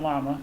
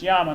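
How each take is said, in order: First: The word begins with an L sound. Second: The word begins with a Y sound. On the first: The speaker calls it wrong. "not llama" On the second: The speaker calls it right. "it's llama"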